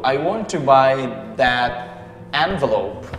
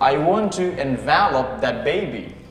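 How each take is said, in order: First: Envelope is stressed on the first syllable. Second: Envelope is stressed on the second syllable.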